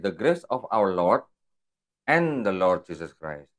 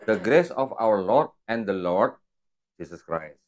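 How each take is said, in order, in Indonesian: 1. Tidak ada jeda sebelum "Jesus Christ". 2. Ada jeda sebelum "Jesus Christ". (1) "kalau saya bacanya gini" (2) "Setelah itu ada ada jeda, baru saya sebut Yesus Kristus"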